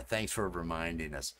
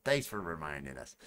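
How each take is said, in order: First: Said in the usual way. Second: Low, dry sarcastic thanks. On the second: Shown as a demonstration. Streamer answering a reminder from chat, sarcastic. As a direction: thank them with mild sarcasm. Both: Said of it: "I'm gonna say it in a sarcastic tone".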